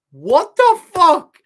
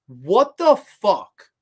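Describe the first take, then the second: First: High, loud, slow shocked shriek; real outraged disbelief, pitched way up. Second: Slow, louder disbelieving what the fuck; real disbelief, drawn out; stunned. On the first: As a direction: let it fly up into a shocked shriek. Repeats reaction, much more intensely. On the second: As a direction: drag it out in shock. Reacting in disbelief to death report. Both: Real, not acted.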